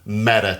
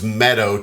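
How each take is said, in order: First: The name ends with an 'uh' sound. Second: The name ends with an 'oh' sound. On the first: This is how locals say it. The speaker calls it right. "all the people from West Texas know it's pronounced Meta" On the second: This is how it looks on a map. The speaker calls it wrong. "you would think it was Meadow"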